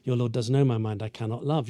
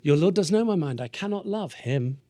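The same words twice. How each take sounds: First: Understated, settled refusal; resolute refusal. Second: Higher start, slowing down onto "him"; lifted pitch, lingering on the last words; suddenly smitten. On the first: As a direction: restate the vow matter-of-factly. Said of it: "what she's been saying all along". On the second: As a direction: let the vow slip on seeing someone lovely. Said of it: "Enter really cute boy". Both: Acted.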